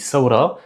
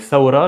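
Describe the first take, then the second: First: The word begins with an s sound. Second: The word begins with a th sound. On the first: This is the Levantine form. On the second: This is the classical form.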